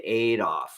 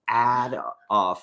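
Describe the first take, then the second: First: The name is said the American way. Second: The name is said the British way. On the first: "we say aid off" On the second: "you say ad off"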